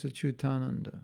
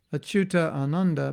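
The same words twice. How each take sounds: First: "Achyutananda" as one word, one long "taa"; fuse the A's in "Achyutananda"; joined-words demo. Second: "Achyuta Ananda" with both A's sounded; separated-words demo. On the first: Explaining Sanskrit joining, "Achyutananda" merged into one. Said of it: "becomes Achyutananda". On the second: Explaining Sanskrit joining, "Achyuta Ananda" unjoined. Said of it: "So in Sanskrit, it's like that". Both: Shown as a demonstration.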